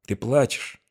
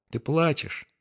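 First: Soft wondering question; surprised. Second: High, soft and compassionate; tender. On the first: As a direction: ask it gently, amazed. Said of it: "В голосе её зазвучали удивление". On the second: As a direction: say it with tender pity. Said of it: "нежность и сострадание". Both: A narrator's reading.

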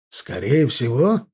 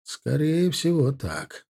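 First: "Скорее всего" drawn out slowly, rising into a question; questioning echo. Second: Thoughtful drawl. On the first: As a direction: query "Скорее всего" with a slow lift on "всего". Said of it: "переспросил капитан". ("Скорее всего" переспрашивая, медленно, с подъёмом в конце) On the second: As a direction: draw it out pensively, letting the end drop. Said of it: "задумчиво протянул Арди". (задумчиво, протяжно) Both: A narrator's reading.

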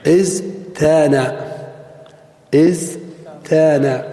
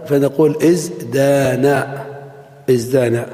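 First: ازدان said as "iztana" with a t, very slow; ازدان slowly as "iztana", before the change; theoretical form. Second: ازدان said as "izdana" with a clear d; ازدان as "izdana", after the t becomes d; corrected form. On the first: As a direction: draw out ازدان with a t after the z. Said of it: "كان القياس". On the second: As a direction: say ازدان with a d, slowly. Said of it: "ثم تقلب التاء إلى دال". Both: Shown as a demonstration.

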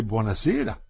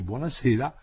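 First: Understated sweet mockery with a rising end; sweetly ironic, cheeky. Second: Said in the usual way. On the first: A narrator's reading. Woman answering his awkward goodnight, sweetly ironic and cheeky. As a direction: lightly tease with a sweet goodnight. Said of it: "dolcissima voce ma ironica strafottente". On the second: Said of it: "non aveva saputo aggiungere altro".

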